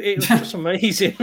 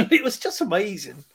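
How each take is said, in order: First: Said in the usual way. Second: Laughing. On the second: Real, not acted. Laughs while repeating line.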